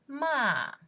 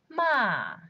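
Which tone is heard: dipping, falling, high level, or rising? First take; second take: falling; falling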